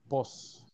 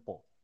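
First: It is the Mexican form, pos. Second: It is the Chilean form, po.

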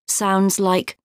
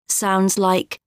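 Both takes have the same delivery.

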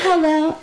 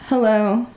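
First: It is said in a playful, silly way. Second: It is said in a serious way.

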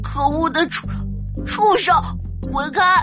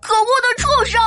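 First: It is said hesitantly and quietly. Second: It is said loudly and forcefully.

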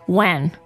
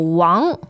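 First: The vowel is a flat English-style 'a'. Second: The vowel is a broad open 'ah'. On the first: The speaker calls it wrong. "Do not attempt to pronounce this as Wang" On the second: The speaker calls it right. "the A-N-G should be Ang"

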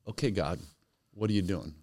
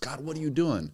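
First: It sounds open and curious. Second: It sounds accusing and upset.

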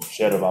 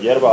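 First: The word begins with a 'sh' sound. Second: The word begins with a 'y' sound. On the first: The speaker is Argentine. "Serba, mate" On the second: The speaker is not fully Argentine. "Mondom, hogy yerba, akkor nem teljes argentin"

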